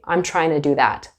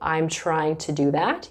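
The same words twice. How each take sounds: First: Trying to is reduced to a quick tryna. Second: Trying to is said fully as two words. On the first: "you say" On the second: "Instead of saying"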